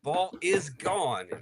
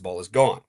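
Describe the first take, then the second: First: The call sounds loud and excited. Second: The call sounds restrained and subdued. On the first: The broadcaster's own team hit the home run. "no doubter for us, very different" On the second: The opposing team hit the home run. "if it's the other team hitting a no doubter"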